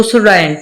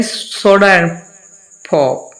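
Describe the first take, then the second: First: "soda and" with no r between the words; wrong pronunciation. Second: Soda-r-and pop, the words run together; native pronunciation. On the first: Teacher showing students the wrong way, no linking r. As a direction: soda and, the vowels kept apart. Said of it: "ऐसे नहीं होता". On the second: Teacher showing students how native speakers link it. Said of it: "वो कैसे करते हैं?". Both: Shown as a demonstration.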